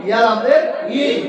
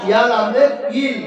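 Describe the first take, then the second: No difference in how they are said.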